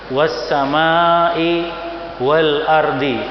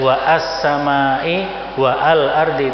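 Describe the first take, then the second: First: The words run together without a glottal stop. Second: A break with a glottal stop separates the words. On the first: The speaker calls it right. "hamzahnya tidak terbaca" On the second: The speaker calls it wrong.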